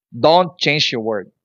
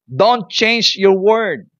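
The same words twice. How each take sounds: First: "Don't" stressed, steady and slow; firm exhortation. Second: "Don't change your word" much slower and higher, every word weighted; slow emphatic repeat. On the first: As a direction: press "Don't change your word" as a warning. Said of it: "Then, keep confessing". (mariing "Don't change your word") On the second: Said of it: "Do not give up, my friend". (dahan-dahan at mariing "Don't change your word") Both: Shown as a demonstration.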